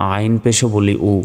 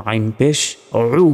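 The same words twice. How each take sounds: First: উ as a simple vowel, no throat squeeze; mistaken plain u. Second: Throat-made, held উ; correct throaty ayn. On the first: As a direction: imitate learners saying a plain "u" for উ. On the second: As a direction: start উ with a pharyngeal ayn. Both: Shown as a demonstration. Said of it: "এইভাবে করা যাবে না".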